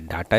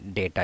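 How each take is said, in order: First: The first vowel sounds like 'ah'. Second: The first vowel sounds like 'ay'. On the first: "डाटा ही बोलिए" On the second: "डेटा ही बोलिए"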